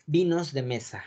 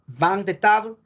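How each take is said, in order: First: Said in the usual way. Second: "Vin de table" in French, nasal vin, final e dropped; French pronunciation. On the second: Shown as a demonstration. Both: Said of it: "En español, por favor".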